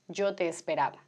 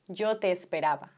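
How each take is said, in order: First: The two e vowels merge into one. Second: The same.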